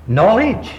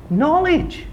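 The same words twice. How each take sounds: First: Said in the usual way. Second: Echoed high. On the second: Shown as a demonstration. Preacher echoing the word Moses was given, high and awed. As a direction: float "Knowledge." up high as an awed echo.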